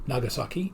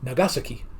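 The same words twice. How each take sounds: First: The accent is not on the second syllable. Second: The accent is on the second syllable. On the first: The speaker calls it wrong. "it's not pronounced Nagasaki in Japanese" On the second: The speaker calls it right. "Accent on the second"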